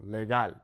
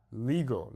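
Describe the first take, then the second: First: Legal as leh-GAHL; Spanish "legal" with open a; Spanish pronunciation. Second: Legal as LEE-gul; anglicised "Legal", long ee; English pronunciation. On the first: Teacher contrasts with English, Spanish legal. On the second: Teacher shows the English vowels, Legal as LEE-gul. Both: Shown as a demonstration. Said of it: "focus on the vowel sounds".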